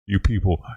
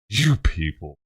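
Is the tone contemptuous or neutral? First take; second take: neutral; contemptuous. First: It is said in a plain, neutral tone. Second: It is said with a contemptuous, exasperated emphasis. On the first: The speaker is simply addressing the people present. The speaker calls it right. "I didn't do that" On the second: The speaker looks down on the group as a whole. The speaker calls it wrong. "I guess you could say it in a racist way"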